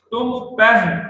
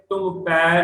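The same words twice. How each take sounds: First: ਪਹਿ said as pa-hi, with a clear h sound; correct recitation. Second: ਪੈ said as a single pai, with no h; wrong way. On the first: Teacher demonstrating ਪਹਿ with the h sound to the congregation. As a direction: let the h be heard in ਪਹਿ. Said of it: "ਫਾਹੇ ਨੂੰ ਸਿਹਾਰੀ ਹੈ". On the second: Teacher showing the mistaken ਪੈ in passing. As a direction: swallow the h and say ਪੈ. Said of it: "ਤੁਮ ਪੈ ਨਹੀਂ ਬੋਲਣਾ". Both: Shown as a demonstration.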